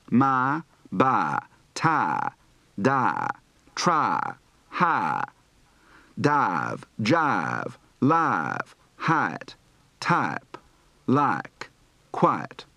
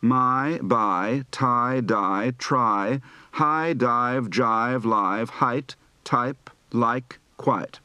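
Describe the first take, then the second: First: Southern drawl, flattened "my" and "tie"; Southern I to A shift. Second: Said in the usual way. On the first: Shown as a demonstration. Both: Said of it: "Practice words for the I to A shift".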